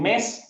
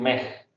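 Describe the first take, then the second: First: The word ends with a clear s sound. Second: The final s becomes a soft breathy sound. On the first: "en vez de decir mes" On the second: "dicen me"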